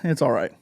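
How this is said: It sounds let down and unimpressed. The film fell short of high hopes. "eh, it kind of misses"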